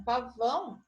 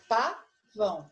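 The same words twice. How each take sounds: First: Said in the usual way. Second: "pavão" slowly, split into pa and vão; sílaba por sílaba. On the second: Shown as a demonstration. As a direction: break "pavão" into its two syllables. ("pavão" devagar, separando pa e vão) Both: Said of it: "uma das sílabas".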